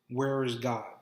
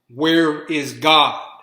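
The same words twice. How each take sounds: First: It is said at normal volume. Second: It is said in a louder voice.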